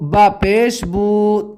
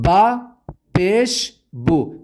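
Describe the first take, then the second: First: The vowels are stretched out long. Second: The vowels are kept short and crisp. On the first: The speaker calls it wrong. "कॉमन तौर से बच्चे ये गलती करते हैं कि इसे इस तरह पढ़ते हैं" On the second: The speaker calls it right. "तो आपको इस तरह पढ़ना है"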